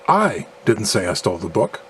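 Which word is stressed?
I. The stress falls on the second word I. Someone else stole the book. "implying that someone else stole the book"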